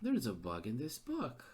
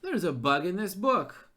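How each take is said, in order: First: "There's a bug in this book." said much softer to himself; soft, resigned aside; muttered repeat. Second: Louder "There's a bug in this book." with a falling stress on "There's"; frustrated, emphatic "There's"; exasperated outburst. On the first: Repeats it under his breath. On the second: Exasperated at gamebook error. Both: Real, not acted.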